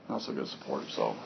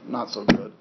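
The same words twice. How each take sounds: First: Breathy whisper under his breath; whispered aside. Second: Said in the usual way. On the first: Real, not acted. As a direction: mutter it to yourself, voiceless. Repeats complaint under his breath.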